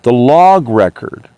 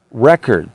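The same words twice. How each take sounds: First: "log" stressed, slowed, falling. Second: Said in the usual way. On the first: Shown as a demonstration. Correcting himself to "the log record", "log" stressed.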